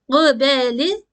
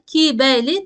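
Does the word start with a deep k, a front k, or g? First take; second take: g; front k. First: It starts with a voiced g sound. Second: It starts with a thin, front k sound. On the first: "gıbeli ya da kibeli değil" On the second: "gıbeli ya da kibeli değil"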